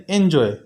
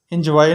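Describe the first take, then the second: First: "एंजॉय" ending in a clean "oe" glide, falling; correct pronunciation. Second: "एंजॉय" said as "enjwai", ending in a w-glide and "ai"; wrong pronunciation. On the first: Teacher to students, modelling "एंजॉय" correctly. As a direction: say "एंजॉय" as "enjoe", no w sound. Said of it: "एंजॉय नहीं". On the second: Teacher showing students the wrong way, "एंजॉय" as "enjwai". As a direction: mispronounce "एंजॉय" with "wai" at the end. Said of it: "नहीं". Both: Shown as a demonstration.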